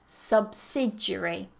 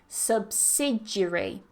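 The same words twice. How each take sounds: First: One syllable is dropped from the word. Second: The same.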